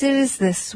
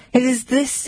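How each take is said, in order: First: "it is this" pitched high, then falling firmly on "this"; mock-indignant, slamming the phrase down; closing off the baker's refrain with a fall; indignant falling repeat. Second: "It is this" lifted high, ending on a rise; mock-indignant, voice climbing up on "this"; quoting the baker with a rising scoff; indignant rising repeat. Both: A narrator's reading. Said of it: "the bellman indignantly said".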